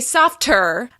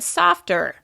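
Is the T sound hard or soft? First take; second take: hard; soft. First: The T is released hard and distinctly. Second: The T is pulled back and soft. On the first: The speaker calls it wrong. "I didn't say softer" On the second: The speaker calls it right. "I said softer"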